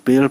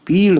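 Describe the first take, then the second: First: पेड़ with a long e vowel; badi ye reading. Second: पीड़ with a long ee vowel; chhoti ye reading. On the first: Teacher asks learners to choose a reading, badi ye vowel. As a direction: say पेड़ with "pe" as its first sound. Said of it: "बड़ी ये मानते हैं तो". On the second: Teacher offers learners the alternative reading, chhoti ye vowel. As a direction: say पीड़ with "pee" as its first sound. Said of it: "छोटी ये मानते हैं तो पीड़". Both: Shown as a demonstration.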